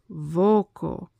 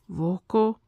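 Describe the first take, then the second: First: The stress is on the first syllable. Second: The stress is on the last syllable. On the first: The speaker calls it right. "So it's vocal" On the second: The speaker calls it wrong. "you don't put a stress on the on the last thing"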